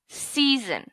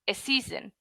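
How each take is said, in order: First: The word starts directly with the s sound. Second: An extra vowel sound comes before the s. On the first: The speaker calls it right. "You just go season" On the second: The speaker calls it wrong. "they put the E on the S"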